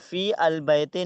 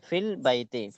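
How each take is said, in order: First: The 'al' vowel is pronounced as a separate syllable. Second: The 'al' vowel is dropped, joining fi to lam. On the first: The speaker calls it wrong. "नहीं कहना है" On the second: The speaker calls it right. "Direct लाम से मिलाएंगे"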